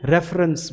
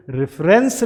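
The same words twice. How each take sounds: First: रेफरेंस with a schwa, "REF-runs"; correct pronunciation. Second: रेफरेंस with a full "e", "ref-RENS"; wrong pronunciation. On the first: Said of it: "क्या बोलेंगे". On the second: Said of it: "इसे रेफरेंस नहीं बोलेंगे". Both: Shown as a demonstration.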